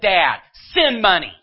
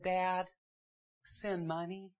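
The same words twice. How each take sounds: First: It sounds harsh and demanding. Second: It sounds warm and pleading. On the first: The son is making a blunt demand. The speaker calls it wrong. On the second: The son is asking kindly for help. The speaker calls it right.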